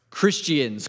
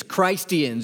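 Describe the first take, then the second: First: CHRISTIANS sounded out with a short i as in "kiss"; coined name. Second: CHRISTIANS said as "Christ-ee-ans", long i as in Christ; Christ-ians. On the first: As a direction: say CHRISTIANS with the usual short first vowel, syllables separated. A city coins the name. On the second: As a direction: sound out the name Christ inside CHRISTIANS. Name stressing the word Christ. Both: Acted.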